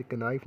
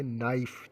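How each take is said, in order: First: "क-, नाइफ" with a k before the n; wrong pronunciation. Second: "नाइफ" starting straight on the n; silent k. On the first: Teacher warning students off a reading, k sounded in "क-, नाइफ". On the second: Teacher giving students the correct reading, silent k in "नाइफ". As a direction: say "नाइफ" with no k sound. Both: Shown as a demonstration. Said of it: "नहीं पढ़ेंगे".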